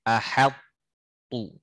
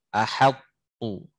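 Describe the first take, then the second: The two takes are said the same way.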